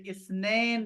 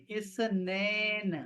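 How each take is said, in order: First: Said in the usual way. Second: اسنین drawn out slowly, syllable by syllable; slow clear Arabic pronunciation. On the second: Shown as a demonstration. Teacher slowly dictates اسنین to his students. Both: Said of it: "آپ لکھیں یا پھر اسنین لکھیں".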